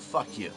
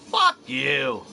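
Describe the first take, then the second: First: It is said flatly, calmly, with no emphasis. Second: It is said with a somewhat aggressive edge. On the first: The speaker is just explaining something. "I just said that in a tone of voice that you could tell I was trying to explain something. It didn't have any emphasis to it at all" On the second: The speaker is being confrontational. "Now you can tell I'm a little more a little more aggressive"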